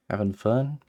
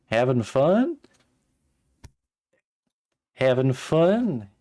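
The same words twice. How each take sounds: First: Said in the usual way. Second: Southern drawl, higher and louder; drawn-out Southern Having fun?. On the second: Shown as a demonstration. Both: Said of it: "Should I give him, like, a hick accent?".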